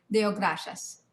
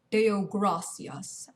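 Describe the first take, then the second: First: "Deo gracias" with a sh sound: DEH-oh GRAH-shas; "Deo gracias" with rolled r and sh in "gracias"; own preferred pronunciation. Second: "Deo gracias" slowly, with an s sound: DAY-oh GRAH-see-ahs; "Deo gracias" in slow, separated syllables with a plain s; rejected pronunciation. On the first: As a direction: say "Deo gracias" briskly, "gracias" as grashas. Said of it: "pronounce names how I want 'em". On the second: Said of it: "You don't say". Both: Shown as a demonstration.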